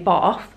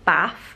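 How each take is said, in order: First: It is said with a southern English accent. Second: It is said with a northern English accent. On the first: The speaker is from the south. "If you're southern, I believe you say" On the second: The speaker is from the north. "If you're northern, you'll probably say"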